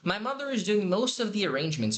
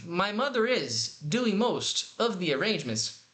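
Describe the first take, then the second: First: The phrase breaks fall in natural places. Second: The phrase breaks fall in odd places. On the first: The speaker calls it right. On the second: The speaker calls it wrong. "Separando os blocos errados"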